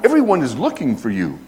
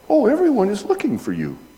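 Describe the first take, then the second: First: It sounds exasperated and reproachful. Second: It sounds light and friendly.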